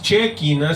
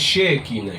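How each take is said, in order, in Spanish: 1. El primer sonido no es el sonido 'sh'. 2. El primer sonido es el sonido 'sh'. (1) "No es Shekinah" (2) "sino es Shekinah. She"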